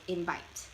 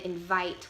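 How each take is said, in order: First: The middle consonant is a B sound. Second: The middle consonant is a V sound.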